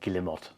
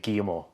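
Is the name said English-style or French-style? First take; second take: English-style; French-style. First: Every syllable of the name is pronounced. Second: The name is said the French way. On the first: "it's more like Guillemot because you pronounce every single syllable" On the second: "If you're from France or Spain, it'll be Guillemot"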